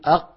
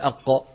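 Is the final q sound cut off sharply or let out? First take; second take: cut off; let out. First: The final q sound is fully stopped. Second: The final q sound is released with breath. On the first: The speaker calls it right. "قل أق" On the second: The speaker calls it wrong. "لا تفلتها، لا تفلتها، لا تقول أق"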